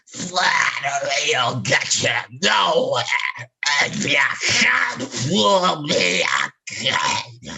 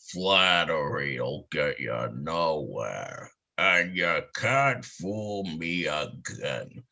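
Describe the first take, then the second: First: The growly voice is more clearly articulated. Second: The growly voice is less clearly articulated. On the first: "if Cummings did it, it'd be more like" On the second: "when Mel would talk his tears, he'd sound more like"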